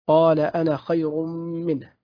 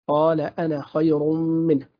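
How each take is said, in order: Both takes have the same delivery.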